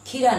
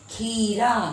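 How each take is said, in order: First: The first vowel is said short. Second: The first vowel is drawn out long. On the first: The speaker calls it wrong. "नहीं" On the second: The speaker calls it right. "ख में बड़ी"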